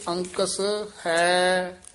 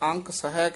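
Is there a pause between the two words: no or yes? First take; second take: yes; no. First: A short break separates the last word. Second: The two words run together without a break. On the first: The speaker calls it right. "ਅੰਕਸ ਵੱਖਰਾ ਕਰਨਾ ਹੈ ਪਦ ਵੱਖਰਾ ਬੋਲਣਾ" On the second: The speaker calls it wrong. "ਆਮ ਬਹੁਤੇ ਪਾਠੀ ਸਿੰਘ ਅੰਕਸ ਹੈ ਕਹਿ ਜਾਂਦੇ ਹਨ"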